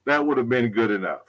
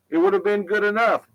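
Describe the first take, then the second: First: Said in the usual way. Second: Higher, put-on voice echoing the line; mock echo voice. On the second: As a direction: say it again higher, as someone else. Repeats the line in a different voice.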